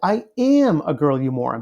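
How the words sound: The word am is strongly stressed.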